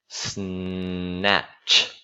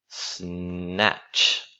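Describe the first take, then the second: No difference in how they are said.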